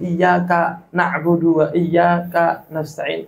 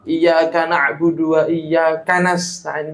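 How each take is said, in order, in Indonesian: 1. Ada jeda singkat setelah setiap iyyaka. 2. Kata-katanya mengalir tanpa jeda. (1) "dipakai sakta kayak gini" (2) "kalau dibaca dibaca langsung"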